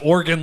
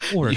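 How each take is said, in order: First: The word sounds like the body part 'organ'. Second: The word does not sound like 'organ'. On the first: The speaker calls it wrong. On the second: The speaker calls it right.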